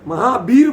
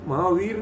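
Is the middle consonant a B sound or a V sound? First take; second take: B sound; V sound. First: The middle consonant is a B sound. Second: The middle consonant is a V sound. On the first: The speaker calls it wrong. "महावीर बोलेंगे" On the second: The speaker calls it right. "महावीर नहीं बोल पाएंगे"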